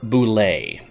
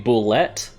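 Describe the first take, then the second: First: The word ends without any T sound. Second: The word ends with a clearly pronounced T. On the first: "I think the correct way to say it is boulet" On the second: "A lot of people saying they pronounce the T"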